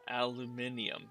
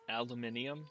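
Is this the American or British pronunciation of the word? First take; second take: British; British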